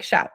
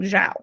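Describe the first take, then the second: First: The name starts with an 'sh'-like sound. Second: The name starts with a 'j'-like sound. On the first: This is how the name's owner says it. The speaker calls it right. "that's what I remembered him telling me" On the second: Others assumed this pronunciation. The speaker calls it wrong. "I kept hearing people in meetings saying"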